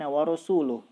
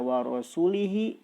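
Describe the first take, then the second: First: The last word ends with a u vowel. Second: The last word ends with an i vowel. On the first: The messenger also disowns the polytheists. The speaker calls it right. "bacaan dengan harokat yang benar" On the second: God disowns both the polytheists and the messenger. The speaker calls it wrong. "ketika dibaca wa rasulihi"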